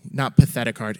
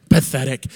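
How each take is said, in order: First: "Not" hit firmly; stress on not. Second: "Pathetic" said with a louder falling punch; mock disapproval. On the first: Pastor correcting a slip, stressing the word. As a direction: punch "Not" to correct himself. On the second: Pastor jokes about his slip, punchy "Pathetic". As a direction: land "Pathetic" as a mock verdict. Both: Shown as a demonstration.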